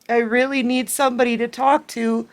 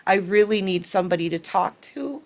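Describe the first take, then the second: First: Higher, tearful plea as her own tears rise; crying. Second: Said in the usual way. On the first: Real, not acted. Reader near tears voicing the ex's plea to a friend, crying. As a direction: let the voice break as you beg. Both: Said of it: "See, they're making me cry again".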